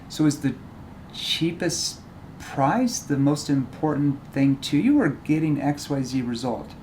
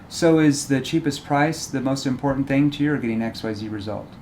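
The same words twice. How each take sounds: First: Cheapest price is said as if it's bad. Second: Cheapest price is said in a neutral way.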